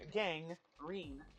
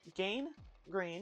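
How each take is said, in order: First: The first syllable sounds like 'gang'. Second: The first syllable sounds like 'gain'.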